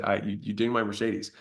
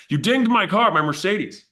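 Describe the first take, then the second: First: Said in the usual way. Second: Much higher and louder, outraged; hammed-up fury over the car; mock outraged caller. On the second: Caller scolding the gym owner over his Mercedes, mock outrage. Angry caller complaining about flyer.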